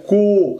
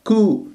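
First: كو with lips pushed round and high; over-round the lips on كو; wrong rounded ku. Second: كو with a light lip rounding; correct light ku. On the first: Teacher exaggerating a mistake. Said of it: "خطأ". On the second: Teacher showing the correction. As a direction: keep the lips small on كو. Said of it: "بهذه الطريقة". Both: Shown as a demonstration.

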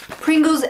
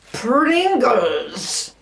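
First: Said in the usual way. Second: PRINGLES stretched out into a long, showy call; showy announcement. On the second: Pretend. Vlogger unveiling the next snack, showy drawn-out PRINGLES. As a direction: draw out both syllables of PRINGLES theatrically.

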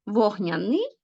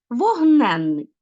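First: Вогняний with the stress on final НИЙ, rising; contrasting stress. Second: Вогненний slow and loud, stressed on НЕН; stressed suffix. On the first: Teacher contrasting two words for pupils, вогняНИЙ stressed on the ending. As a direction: lift the last syllable of вогняний. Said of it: "а у слові". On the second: Teacher contrasting two words for pupils, вогНЕНний stressed on НЕН. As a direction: punch and stretch НЕН in вогненний. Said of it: "додаванням наголошеного суфікса". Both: Shown as a demonstration.

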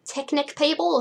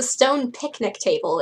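First: "picnic table" with first sounds swapped, "ticnic pable"; slip of the tongue. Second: Said in the usual way. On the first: Real, not acted. Reader stumbles over "picnic table", saying "ticnic pable". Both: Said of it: "Is that what I was about to say?".

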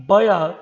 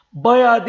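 First: Said in the usual way. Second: "Bayağı" said as bayad, the wrong way; wrong pronunciation. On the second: Shown as a demonstration. Teacher shows students the wrong form, a rising "Bayağı". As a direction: give the mistaken "Bayağı" with a rising tune. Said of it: "Bayağı değil".

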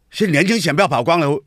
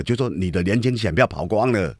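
First: 轻 in 年轻选票跑光了 hit higher, with a falling tone; emphatic repeat. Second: Said in the usual way. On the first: Real, not acted. Repeating to the audience that young voters are gone, with emphasis. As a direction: lean hard on 年轻 and 跑光了.

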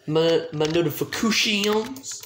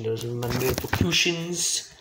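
First: Slow "notifications" stretched out and rising; playful mispronunciation. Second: Said in the usual way. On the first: Real, not acted. Streamer repeating own word "notifications", stretched and rising. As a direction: draw out "notifications" with a lilt up at the end.

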